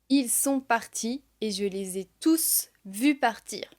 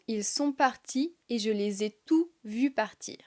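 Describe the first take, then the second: First: The final S of tous is pronounced. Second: The final S of tous is silent.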